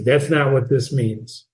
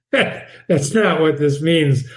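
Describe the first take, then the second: First: Said in the usual way. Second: Slow with a laugh; amused slow repeat. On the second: Shown as a demonstration. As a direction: laugh then say "not" slowly.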